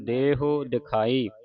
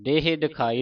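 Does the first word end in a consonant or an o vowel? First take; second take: o vowel; consonant. First: The first word ends with a final o vowel. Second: The first word ends without a final o vowel. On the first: The speaker calls it right. "ਹਾਹੇ ਨੂੰ ਔਂਕੜ ਲੱਗਾ ਹੈ, ਉਚਾਰਨ ਕਰਨਾ ਹੈ" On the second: The speaker calls it wrong. "ਦਰਸ਼ਨ ਦੇਹ ਦਿਖਾਈ ਨਹੀਂ ਪੜ ਦੇਣਾ"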